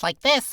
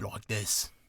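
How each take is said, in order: First: The voice is raised and high. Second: The voice is low and deep. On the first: "you raise your voice like this" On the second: "if you go really deep like this"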